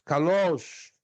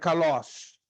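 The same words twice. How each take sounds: First: The stressed vowel is higher and drawn out longer. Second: The stressed vowel is short, without a prolonged rise. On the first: "Mas como é circunflexo, kalos" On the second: "Se fosse acento agudo, seria kalos"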